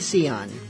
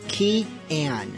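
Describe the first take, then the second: First: The name begins with an S sound. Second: The name begins with a K sound. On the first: The speaker calls it wrong. "I was saying Sion. It's just a, you know, K instead of a S" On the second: The speaker calls it right. "that is how the band says to pronounce it"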